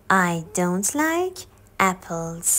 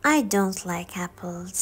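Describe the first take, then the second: First: Very slow, like stretched, repeated for learners; second slow teaching take. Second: Very slow, each word laid out for learners; slow teaching demo; slow model sentence. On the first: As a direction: say it again slowly. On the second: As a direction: spell it out slowly for the class. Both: Shown as a demonstration.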